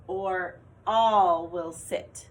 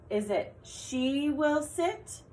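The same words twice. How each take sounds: First: "all" said slowly and louder; slow loud option. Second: Slow and higher, offering "she"; slow choice read. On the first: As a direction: drag out the second option. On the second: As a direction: lay out the first option slowly. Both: Shown as a demonstration. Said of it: "Did you say she?".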